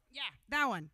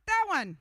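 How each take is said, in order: First: Said in the usual way. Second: Much higher and louder, "That" punched hard; loud excited confirmation. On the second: Real, not acted. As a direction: cheer him on as he finally nails the pose. Coaching Ted's stretch pose.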